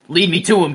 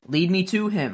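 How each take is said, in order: First: It is said in a harsh, stern tone. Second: It is said in a calm, gentle tone. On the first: The child is being ordered around. The speaker calls it wrong. "not like" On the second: The child is being soothed and encouraged. The speaker calls it right. "you got to calm the kid down and be like"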